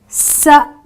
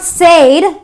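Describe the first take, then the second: First: The vowel is a short 'eh' sound. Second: The vowel is a long 'ay' sound. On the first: The speaker calls it right. "using the eh, the short E vowel sound" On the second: The speaker calls it wrong. "So it's not"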